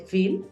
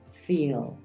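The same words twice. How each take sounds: First: The vowel sound is short and clipped. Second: The vowel sound is drawn out and long. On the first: The speaker calls it wrong. "Tú no dices solamente feel" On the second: The speaker calls it right. "le das un poquito más de espacio a ese sonido I"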